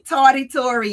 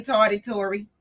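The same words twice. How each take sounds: First: Teasing welcome. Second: Said in the usual way. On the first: Real, not acted. Greeting a late viewer.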